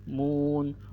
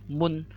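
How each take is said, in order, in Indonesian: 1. Vokalnya dibaca panjang. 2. Vokalnya dibaca pendek. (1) "Nah, munnya jadi panjang" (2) "Munnya pendek ya"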